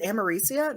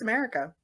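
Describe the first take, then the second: First: The C in the name sounds like an S. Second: The C in the name sounds like a K. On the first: The speaker calls it wrong. "He pronounced the C like an S" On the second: The speaker calls it right. "No, it's America"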